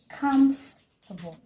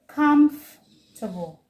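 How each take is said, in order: First: The word is said with three syllables. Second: The same.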